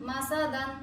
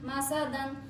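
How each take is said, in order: The two takes are said the same way.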